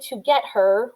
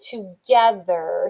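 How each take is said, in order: First: It is said as three separate words. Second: It is said as one smooth word. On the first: The speaker calls it wrong. "we don't say to get her" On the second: The speaker calls it right. "we say together"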